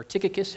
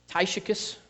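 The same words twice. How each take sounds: First: "Tychicus" said as TICK-uh-kus; "Tychicus" opening like "tick", hard k in the middle; alternate pronunciation. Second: "Tychicus" said as TIE-shuh-kus; alternate pronunciation. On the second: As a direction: say "Tychicus" with a long i and a sh sound. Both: Shown as a demonstration. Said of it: "however you wanna pronounce it".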